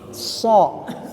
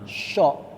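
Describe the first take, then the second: First: It starts with a hissing s, little air. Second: It starts with a breathy hushing sh sound. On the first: The speaker calls it right. "ini so ini enggak ada angin ya sebetulnya" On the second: The speaker calls it wrong. "dia baca huruf so itu seperti sya, cuma di o gitu"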